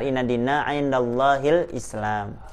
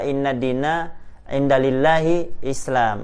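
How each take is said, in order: First: No extra 'li' syllable comes before 'llahi'. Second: An extra 'li' syllable comes before 'llahi'. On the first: The speaker calls it right. "Yang benar" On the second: The speaker calls it wrong. "itu salah. Enggak ada kalimat lillahi"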